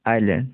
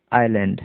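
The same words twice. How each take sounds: The two takes are said the same way.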